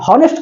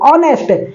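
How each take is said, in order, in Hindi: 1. शब्द की शुरुआत h ध्वनि से होती है। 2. शब्द की शुरुआत एक स्वर ध्वनि से होती है। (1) "हॉनेस्ट कोई थोड़ी पढ़ता है" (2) "ऑनेस्ट मतलब ईमानदार"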